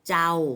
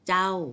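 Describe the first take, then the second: First: The syllable is said on a level mid tone. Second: The syllable is said on a falling tone. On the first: "เป็นเสียงสามัญ" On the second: "เป็นเสียงโท"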